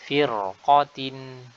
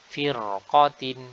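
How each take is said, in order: No difference in how they are said.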